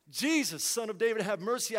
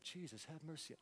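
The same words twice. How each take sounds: First: Urgent, raised cry for mercy; insistent appeal, pitched to carry; desperate plea. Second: Very soft, low, offhand reading; murmured, as if idly reading scripture; read without urgency. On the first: Acted. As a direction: call out as a desperate man would. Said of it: "this guy is desperate". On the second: Retold or imitated. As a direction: toss the plea away under your breath. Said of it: "we kinda read it like".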